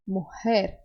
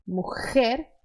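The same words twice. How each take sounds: First: Mujer with a soft breathy h. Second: Mujer with a harsh scraped J; strong J. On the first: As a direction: soften the j in mujer to an h. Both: Shown as a demonstration. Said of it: "É mais suave".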